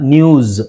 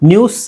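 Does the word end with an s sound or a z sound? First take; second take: z sound; s sound. First: The word ends with a buzzing z sound. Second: The word ends with a hissing s sound. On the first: The speaker calls it right. "ಇಲ್ಲಿ ಝೆಡ್ ಆಗಬೇಕು pronunciation" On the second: The speaker calls it wrong. "ನ್ಯೂಸ್ ಅಲ್ಲ"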